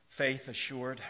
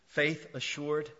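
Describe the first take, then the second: No difference in how they are said.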